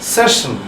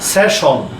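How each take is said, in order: First: The last syllable sounds like 'shun'. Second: The last syllable sounds like 'shon'. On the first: This is the way it should be said now. The speaker calls it right. "Now" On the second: This is the way it is usually said. The speaker calls it wrong. "আমরা আরেকটা শব্দ বলি"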